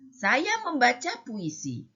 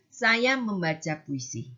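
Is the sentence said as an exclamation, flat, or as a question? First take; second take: exclamation; flat. First: The sentence is said with an exclaiming tune. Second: The sentence is said with a flat, level tune. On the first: It exclaims or commands. "yang ketiga ada tanda serunya" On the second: It states a fact. "yang pertama datar"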